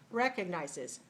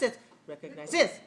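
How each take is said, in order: First: The stress is on the first syllable. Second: The stress is on the fourth syllable. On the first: The speaker calls it right. "If I do this way, it's like this" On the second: The speaker calls it wrong. "If it's like this"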